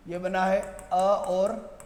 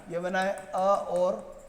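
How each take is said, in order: Both takes have the same delivery.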